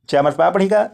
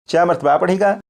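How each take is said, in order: No difference in how they are said.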